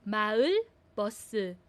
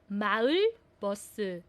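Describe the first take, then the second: The two takes are said the same way.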